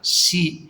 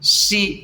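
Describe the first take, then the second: First: The pitch stays low and level. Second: The pitch stays mid and level. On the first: "that's a low level" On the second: "that's the middle level"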